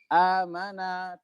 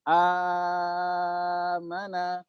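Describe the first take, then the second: First: The long vowel is held for two counts. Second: The long vowel is held for six counts.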